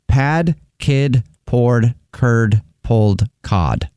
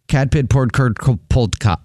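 First: It is said at a normal, careful speed. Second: It is said quickly, stumbling over words.

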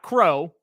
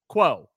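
First: The syllable is said with an r, like crow. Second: The syllable is said with a w, like kwo. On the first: The speaker calls it wrong. "Not Crow" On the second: The speaker calls it right.

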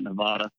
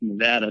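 First: Nevada is said with the East Coast pronunciation. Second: Nevada is said with the local pronunciation. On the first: The speaker calls it wrong. "not Nevada" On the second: The speaker calls it right. "we actually had shirts on campus that say it's Nevada"

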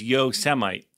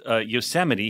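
First: The word ends with a 'mite' sound. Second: The word ends with an 'ee' sound. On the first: The speaker calls it wrong. "He mispronounced Yosemite" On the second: The speaker calls it right. "he pronounced Yosemite"

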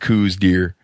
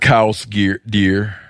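First: The first word rhymes with 'loose'. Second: The first word rhymes with 'house'. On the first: "what all pronunciations exist out there" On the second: "what all pronunciations exist out there"

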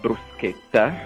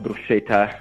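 First: The middle consonant sounds like 'sk'. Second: The middle consonant sounds like 'sh'. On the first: The speaker calls it right. "that's the correct Italian pronunciation" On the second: The speaker calls it wrong. "Not bruschetta"

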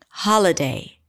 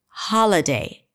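Both takes have the same delivery.

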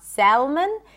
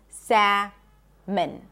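First: The L sound is pronounced in the word. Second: The L sound is silent in the word. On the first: The speaker calls it wrong. "It's not salmon" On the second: The speaker calls it right. "we do not pronounce the L in English"

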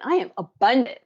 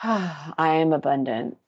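First: It sounds heartfelt and full of conviction. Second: It sounds flat and bored, with a sigh.

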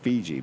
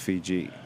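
First: It is said with an American accent. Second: It is said with a New Zealand accent. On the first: "people in the United States say" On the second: "I say the New Zealand way, which is"

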